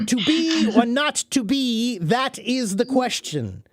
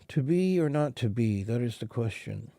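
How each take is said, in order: First: It is spoken loudly, with a strongly projected voice. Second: It is spoken quietly, without projecting the voice. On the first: People at the back of the room can hear it. The speaker calls it right. "You have to move your mouth and really project your voice" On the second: People at the back of the room cannot hear it. The speaker calls it wrong. "you cannot walk on the stage and say"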